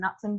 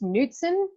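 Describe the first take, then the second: First: The name is said with an Australian pronunciation. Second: The name is said with a Norwegian pronunciation. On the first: The family adapted the name to fit in locally. "we always pronounced it as Knutsen because it was kind of more of an Australian way to say it" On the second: This is how it is said in the home country. "It's Knutsen in Norway"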